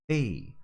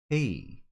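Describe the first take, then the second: The two takes are said the same way.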